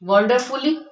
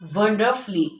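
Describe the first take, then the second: First: The vowel in the ending is clearly pronounced. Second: The vowel in the ending is left silent. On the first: The speaker calls it wrong. "तो it is wrong." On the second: The speaker calls it right. "U is silent in all these words"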